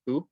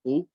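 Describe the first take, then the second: First: Tu said light, little pressure. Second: Tu pressed heavy; heavy pressured tu. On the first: Teacher contrasting light ta. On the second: Teacher contrasting heavy ta. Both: Shown as a demonstration. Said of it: "listen to how you say Ta".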